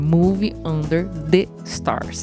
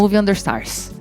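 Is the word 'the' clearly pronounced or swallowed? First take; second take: clear; swallowed. First: The word 'the' is pronounced clearly. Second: The word 'the' is swallowed in fast speech. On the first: "É Movie Under the Stars" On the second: "Pra gente falar rápido"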